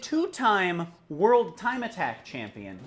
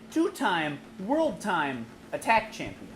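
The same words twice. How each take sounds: First: It flows smoothly with no break before Attack. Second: It breaks the phrase between Time and Attack. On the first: She won the World Time Attack championship twice. The speaker calls it right. "He didn't say" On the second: She is an attack champion of something called World Time. The speaker calls it wrong. "He said ... What is World Time?"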